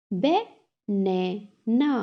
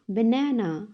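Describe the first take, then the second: First: "Banana" slowly split as ba, na, na; three separate beats on "Banana"; syllable by syllable. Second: Said in the usual way. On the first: Shown as a demonstration. Teacher has class repeat, "Banana" broken in three. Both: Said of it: "तीन syllables में divide".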